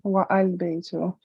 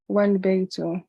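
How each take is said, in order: First: The vowel of al is pronounced separately. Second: The vowel of al is dropped and linked. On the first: The speaker calls it wrong. "not wa al baytu" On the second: The speaker calls it right. "the ah is dropped, and the phrase is pronounced wal baytu"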